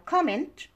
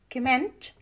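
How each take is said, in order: First: Comment as COM-ment; stress on first syllable. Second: Comment as cuh-MENT; stress on second syllable. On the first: Teacher explaining the noun, comment stressed COM-ment. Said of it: "stress is on the first syllable". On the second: Teacher explaining the verb, comment stressed cuh-MENT. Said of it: "stress is on the second syllable". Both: Shown as a demonstration.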